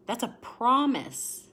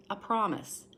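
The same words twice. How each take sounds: First: "promise" stretched out, louder and higher; "promise" drawn out and emphatic; stress on promise. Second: Quiet second "promise"; softer echo of promise. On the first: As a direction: lean hard on "promise", slowly. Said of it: "stressed repetition". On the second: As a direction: let "promise" settle back down. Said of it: "echo, softer". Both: Real, not acted.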